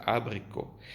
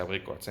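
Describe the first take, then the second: First: "abricot" ending on an open "-co"; French "abricot", pronounced "a-bri-co"; correct French pronunciation. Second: "abricots" with final t and s sounded; wrong pronunciation. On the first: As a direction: keep the t silent in "abricot". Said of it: "Se pronuncia abricot". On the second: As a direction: read "abricots" as spelt, ending "-cots". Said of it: "no se pronuncia abricots". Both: Shown as a demonstration.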